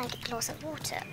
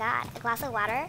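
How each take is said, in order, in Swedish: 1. Det uttalas med brittisk accent. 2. Det uttalas med amerikansk accent. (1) "det som är bra med brittiska är att man kan säga water" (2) "Istället för att typ säga"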